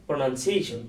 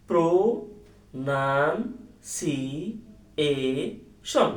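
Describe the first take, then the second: First: Said in the usual way. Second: "pronunciation" very slowly as pro, nan, si, e, shon; syllable by syllable. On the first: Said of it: "হয়ে গেল". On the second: Shown as a demonstration. Teacher showing that syllables fix the spelling, very slow syllable by syllable. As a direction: stretch each syllable of "pronunciation" with clear gaps between. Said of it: "এটা just syllable করলেই".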